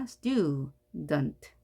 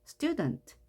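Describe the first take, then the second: First: "student" split into stu, dent; stu, then dent, with a gap; syllable by syllable. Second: Said in the usual way. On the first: Shown as a demonstration. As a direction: sound out both halves of "student" separately. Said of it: "물론 여기서는 앞에도 자음이 있습니다". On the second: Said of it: "강세가 앞에 있어서 student".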